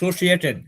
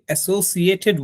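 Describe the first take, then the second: First: The initial vowel is dropped, starting with 's'. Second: The word begins with a clear vowel sound. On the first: "ও এ বলেই নাই" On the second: "আমরা বলি অ্যাসোসিয়েটেড with"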